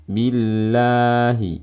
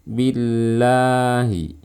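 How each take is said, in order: Both takes have the same delivery.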